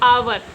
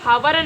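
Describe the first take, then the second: First: The word starts directly with a vowel sound. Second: The word starts with an audible h sound. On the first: The speaker calls it right. "इसको आवर पढ़ेंगे" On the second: The speaker calls it wrong. "तो इसको हावर नहीं"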